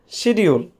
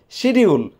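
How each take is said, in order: First: It is said with a Bengali pronunciation. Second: The same.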